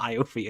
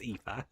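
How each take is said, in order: First: The name is sounded out letter by letter. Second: The name is said with its Irish sounds. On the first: The speaker calls it wrong. "I know it looks like Iofi, but it's not Iofi" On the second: The speaker calls it right. "it is Aoife"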